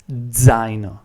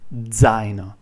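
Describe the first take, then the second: The two takes are said the same way.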